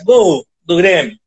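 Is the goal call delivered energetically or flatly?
flat. The call is delivered flatly and dismissively. The goal is treated as unimportant. The speaker calls it wrong.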